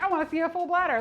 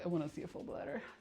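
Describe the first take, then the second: First: It is read in a plain, innocent tone. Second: It is read in a suggestive, sultry tone. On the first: The remark is caring and harmless. "It's not just like" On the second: The remark sounds sexual. "we all read as kind of pervy. ... Sounds hot"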